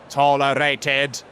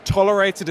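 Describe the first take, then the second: First: Slow, drawn-out Dalek Tolerated. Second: Said in the usual way. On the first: Shown as a demonstration. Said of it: "I love saying as a Dalek". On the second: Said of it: "a word that I love saying as a Dalek".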